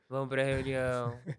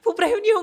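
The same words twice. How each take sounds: First: It sounds reluctant and unenthusiastic. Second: It sounds excited and lively. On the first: The speaker does not like the idea of the meeting. "eu não estou gostando da ideia" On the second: The speaker is eager to go to the meeting. "eu estou muito animada"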